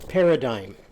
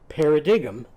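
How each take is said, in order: First: It is said the usual way, not as spelled. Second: It is sounded out as spelled, not the usual way. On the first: The word was heard before. The speaker calls it right. "you would pronounce it as paradigm" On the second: The word was learned from print, not heard. The speaker calls it wrong. "every time she said paradigm, people laughed at her"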